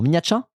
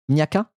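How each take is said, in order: First: The middle sounds like 'tcha'. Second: The middle sounds like 'ka'. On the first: "ça se dit Tcha ou Ka" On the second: "ça se dit Tcha ou Ka"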